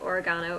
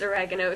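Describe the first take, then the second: First: It is said with a British pronunciation. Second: It is said with an American pronunciation. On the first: "we call it oregano over here" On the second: "in the U S it's oregano"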